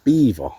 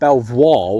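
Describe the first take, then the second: First: It is said like the word beaver. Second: It is said as spelled, like bel-voir. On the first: The speaker calls it right. "but it's actually pronounced Beaver" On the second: The speaker calls it wrong. "you'd pronounce it Belvoir with it being spelt like that"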